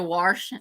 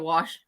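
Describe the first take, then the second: First: The word is said with an R before sh. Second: The word is said with no R sound. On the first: It is a rural, hillbilly way of speaking. "I say wash" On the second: It is how everybody else says it. "There's no R in wash"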